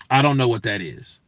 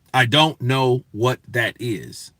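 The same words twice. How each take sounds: First: Said in the usual way. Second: Slow, word by word; deliberate emphasis. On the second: Retold or imitated. Answering people who say it wrong, slow and deliberate. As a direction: spell out the confusion one word at a time.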